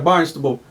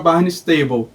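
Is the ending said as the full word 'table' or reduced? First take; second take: reduced; full table. First: The ending is reduced, not said as 'table'. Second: The ending is said as the full word 'table'. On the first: The speaker calls it right. "não, era Barnstable" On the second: The speaker calls it wrong. "todo mundo sabe que, como é que é mesa em inglês, né? Table"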